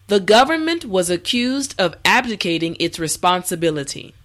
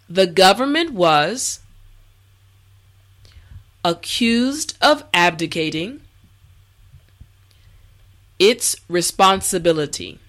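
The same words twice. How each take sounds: First: The sentence is spoken at a natural speed. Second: The sentence is spoken slowly and carefully. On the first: "the last time at a regular pace" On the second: "this time repeat after me"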